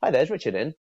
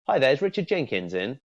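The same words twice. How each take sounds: First: Light casual receptionist ask; casual first name only. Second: Full name said like a cold call; formal full name. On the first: Coach demos a friendly call opener. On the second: Coach demos a formal cold call opener. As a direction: ask in a stiffer corporate way. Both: Shown as a demonstration. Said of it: "do you see the distinct difference".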